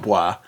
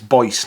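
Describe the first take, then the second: First: It is said the French way, without s. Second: It rhymes with voice, with a final s. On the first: This is the pronunciation the speaker prefers to use. "not Bois" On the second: This is the pronunciation others say is correct. "Apparently it's Boyce"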